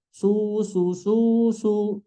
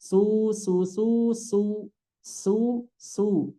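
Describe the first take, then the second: First: "Su" with lips pouted already on the s; wrong pouted su. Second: "su" with a spread s then rounding on u; correct su. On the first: Teacher mimicking the wrong su. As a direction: show the mistake, rounded s. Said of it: "jangan sampai mengucapkan sinnya begini". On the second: Teacher modeling the correct su. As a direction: model the right su. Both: Shown as a demonstration.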